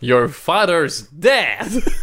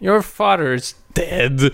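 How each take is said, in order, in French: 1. La réplique est dite en souriant, d'un ton joyeux. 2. La réplique est dite d'un ton grave et sérieux. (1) "il sourit en pointant ça" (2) "Il faut pas que tu dises ça comme ça"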